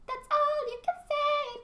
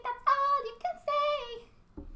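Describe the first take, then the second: First: Very high squeaky cartoon girl; Dee Dee impression. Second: Very high, slow drawn-out squeak; Dee Dee impression slowed. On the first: Dee Dee teasing her brother, very high cartoon squeal. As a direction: squeal like a bratty little sister. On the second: Dee Dee repeating her taunt, very high and slow. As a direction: stretch the taunt in a cartoon girl voice. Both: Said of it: "I love Dee Dee".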